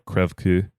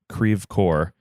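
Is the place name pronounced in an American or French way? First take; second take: French; American. First: The name is said with a French-like pronunciation. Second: The name is said with an Americanized pronunciation. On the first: This is how the French words should sound. The speaker calls it right. "which I believe it should be uh, like more" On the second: This is how the locals say it. The speaker calls it wrong. "certainly not how you would pronounce a French city"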